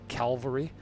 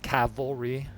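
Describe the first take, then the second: First: The L sound comes before the V. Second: The L sound comes after the V. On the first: The speaker calls it wrong. "I often say it Calvary" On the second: The speaker calls it right. "It's cavalry"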